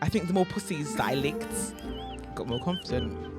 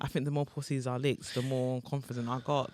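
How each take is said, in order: First: It is said slowly and deliberately. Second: It is said at normal conversational speed.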